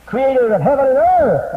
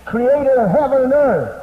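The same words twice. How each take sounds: First: High, loud proclamation, earth held long; preaching shout. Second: High, loud proclamation; preaching shout. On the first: Preacher insisting to congregation, loud and high. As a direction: boom it out again for the crowd. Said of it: "I say". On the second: Preacher proclaiming to congregation, loud and high. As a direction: boom it out to the crowd. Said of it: "No, don't hum it out now". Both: Acted.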